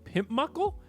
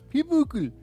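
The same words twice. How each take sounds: First: The name is said with an American pronunciation. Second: The name is said with a German pronunciation. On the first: The speaker calls it wrong. "all of us going" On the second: The speaker calls it right. "he's saying it properly"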